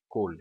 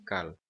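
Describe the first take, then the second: First: "kol" with an "o", as in khol or coal; O vowel. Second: "kal" with an "ah" in place of "o"; wrong A vowel. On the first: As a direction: pronounce "kol" with "o", not "a". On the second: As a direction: demonstrate the mistaken "kal" with an "a". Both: Shown as a demonstration. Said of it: "é kol e não kal".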